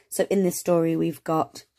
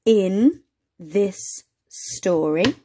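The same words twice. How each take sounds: First: Said in the usual way. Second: Slow reading. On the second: Shown as a demonstration.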